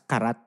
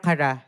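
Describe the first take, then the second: First: The word ends with a T sound. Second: The word ends without a T sound. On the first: "typically, babasahin mo siya as karat" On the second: "may T, pero Kara yung basa talaga doon"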